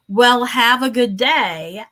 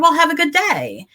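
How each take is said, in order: First: It is said in a sassy, snide tone. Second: It is said in a cheerful, happy tone. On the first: "as super sassy" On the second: "as super happy"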